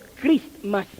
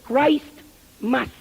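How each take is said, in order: First: It is run together as one word. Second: It is said as two separate words. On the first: This is the later, altered pronunciation. The speaker calls it wrong. "más tarde empezaron a pronunciarlo Christmas" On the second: This is the original pronunciation. The speaker calls it right. "la verdadera pronunciación es Christ Mass"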